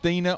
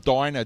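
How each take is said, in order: First: The first syllable does not sound like die. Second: The first syllable sounds like the word die. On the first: The speaker calls it right. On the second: The speaker calls it wrong.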